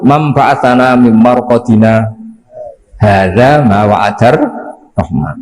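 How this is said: It has a brief pause after marqadina.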